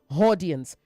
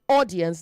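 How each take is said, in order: First: The word begins with an added h sound. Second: The word begins directly with the vowel sound. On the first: The speaker calls it wrong. "not audience" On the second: The speaker calls it right. "say audience"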